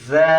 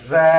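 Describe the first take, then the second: No difference in how they are said.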